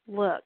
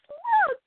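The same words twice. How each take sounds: First: It is said in a flat monotone. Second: It is said in a lively, high voice.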